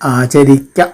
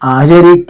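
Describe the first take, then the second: First: The final vowel is kept short. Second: The final vowel is drawn out long. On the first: It means one should practise it. The speaker calls it right. "ദീർഘമില്ലാതെ തന്നെ ഉച്ചരിക്കണം" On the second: It sounds like one should not practise it. The speaker calls it wrong. "ആചരിക്ക എന്ന് നീട്ടിയാൽ"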